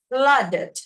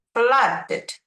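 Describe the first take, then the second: First: Flooded with a full "dɪd" syllable; ED sounded. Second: Flooded repeated, ED as its own syllable; ED sounded again. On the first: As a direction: say Flooded with the ED heard. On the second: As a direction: model Flooded slowly. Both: Shown as a demonstration. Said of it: "with E D, flooded".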